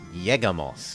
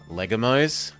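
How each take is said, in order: First: The word begins with a Y sound. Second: The word begins with an L sound. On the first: The speaker calls it right. "When the L sound is doubled, it's a Y sound" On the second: The speaker calls it wrong.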